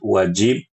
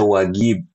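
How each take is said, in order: First: The middle consonant is a J sound. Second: The middle consonant is a hard G sound. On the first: The speaker calls it right. "harusnya kan wajib dibaca wuj- wajib" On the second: The speaker calls it wrong. "Sebagian orang Yaman baca huruf jim dengan G"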